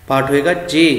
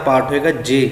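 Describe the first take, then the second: The two takes are said the same way.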